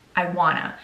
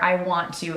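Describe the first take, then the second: First: The words are contracted and run together. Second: Each word is said fully and separately. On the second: "or I want to"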